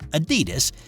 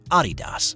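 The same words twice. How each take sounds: First: It is said with an American pronunciation. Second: It is said with a European pronunciation. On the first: "I'm going to pronounce it the way Americans do" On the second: "in Europe, it's said"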